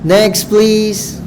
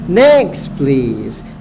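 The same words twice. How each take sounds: First: 'Next' is not pitched above 'please'. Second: 'Next' is pitched clearly higher than 'please'. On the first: The speaker calls it wrong. "Itu sama sekali tidak bagus" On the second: The speaker calls it right. "Next-nya lebih tinggi"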